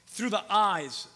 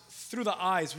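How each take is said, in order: First: Drawn out, each word weighted; slow emphatic refrain. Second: Said in the usual way. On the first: Acted. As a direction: lean into it slowly, preaching.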